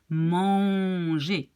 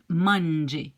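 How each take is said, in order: First: The vowel is nasal and no N is heard. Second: The N is clearly pronounced after the vowel. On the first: The speaker calls it right. "you really have to pronounce it in a very nasal way. So it's manger" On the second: The speaker calls it wrong. "It's not manger. You don't say the N"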